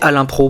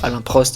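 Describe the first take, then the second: First: The surname ends without any t sound. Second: The surname ends with a sounded t. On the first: The speaker calls it right. "mais Alain Pro" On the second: The speaker calls it wrong. "on prononce mal son nom de famille, c'est pas Alain Prost"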